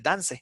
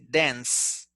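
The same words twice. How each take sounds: First: The word ends with an e vowel sound. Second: The word ends with an s sound. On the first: The speaker calls it wrong. "it is not the e, right? We don't say dance" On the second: The speaker calls it right. "We say dance. It's like an s"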